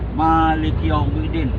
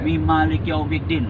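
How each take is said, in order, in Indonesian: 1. Maliki langsung dimulai, tanpa suku kata tambahan. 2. Ada suku kata tambahan sebelum Maliki. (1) "Salah besar" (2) "Mi depan tuh Maliki Yaumiddin"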